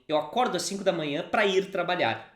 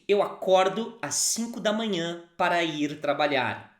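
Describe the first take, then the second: First: It is said at a normal conversational speed. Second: It is said slowly and carefully.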